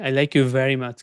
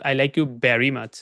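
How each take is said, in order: First: Very starts with teeth on the lower lip. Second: Very starts with both lips pressed together. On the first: The speaker calls it right. "Kind of like that" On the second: The speaker calls it wrong. "Not"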